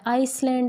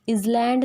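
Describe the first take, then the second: First: An s sound comes before the l. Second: A z sound comes before the l. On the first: "आइसलैंड नहीं होता" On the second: "इजलैंड नहीं होता"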